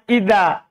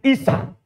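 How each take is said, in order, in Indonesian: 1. Konsonan tengahnya bunyi 'dh'. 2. Konsonan tengahnya bunyi 's'. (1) "Jadi seharusnya ida" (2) "ida menjadi isa. Itu kan salah kalau ikut logat kita"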